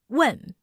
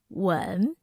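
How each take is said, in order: First: The pitch falls sharply and firmly. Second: The pitch dips low and deep. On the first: "with a downward pitch. Sounds firm and angry" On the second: "The third tone has a deep and low pitch"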